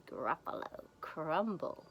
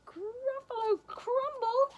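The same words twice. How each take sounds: First: Said in the usual way. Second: Very high, slow, loud questioning cry; horrified Gruffalo. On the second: Acted. Gruffalo hears he is food, high slow mock horror. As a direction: squeal it slowly in mock horror.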